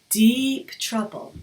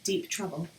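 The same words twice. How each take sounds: First: The phrase is said with strong, lively expression. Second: The phrase is said flatly, with no impact. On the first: The speaker calls it right. "listen to how I say that" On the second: The speaker calls it wrong. "you can't really hear it and it has no impact"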